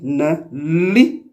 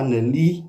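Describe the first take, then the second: First: The verb is said with a strong press. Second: The verb is said without a strong press. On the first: The speaker calls it right. "mais on dit ne lit, qui signifie donc dormir" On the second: The speaker calls it wrong. "on ne dit pas ne lit"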